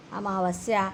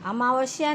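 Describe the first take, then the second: First: अमावस्या with "sya" at the end; correct s. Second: अमावस्या with "shya" at the end. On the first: Teacher correcting the error, अमावस्या with s. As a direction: say अमावस्या as "amavasya". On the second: Teacher citing the error, अमावस्या with sh. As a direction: say अमावस्या as "amavashya". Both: Shown as a demonstration. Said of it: "नहीं".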